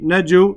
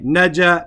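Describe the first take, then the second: First: The word ends with an added u vowel. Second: The word ends with an added a vowel. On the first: The letter carries a dhamma. "I don't say" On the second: The letter carries a fatha. "I don't say naja"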